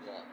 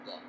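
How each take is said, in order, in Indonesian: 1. Huruf ini terdengar seperti dh yang tebal. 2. Huruf ini terdengar seperti dh yang tebal.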